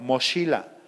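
The ch is a soft sh sound. This is how people from northern Mexico say it. "las personas de Chihuahua, los de Sonora, dicen"

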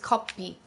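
The word is said with a p sound.

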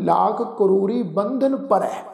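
Bandh and na are run together as one word. The speaker calls it wrong. "ਬਹੁਤ ਸਿੱਖ ਸੰਗਤਾਂ ਐਸੀਆਂ ਹਨ ... ਜੋ ਇਸ ਪੰਕਤੀ ਦਾ ਪਾਠ ਇੰਝ ਕਰਦੀਆਂ ਹਨ"

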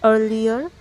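An American accent, with the r sounded. "American প্রোনাউন্সিয়েশনে আপনারা রয়ের sound রাখতে পারেন"

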